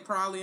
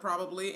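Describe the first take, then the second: First: Some middle sounds are dropped from the word. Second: Every syllable of the word is said fully.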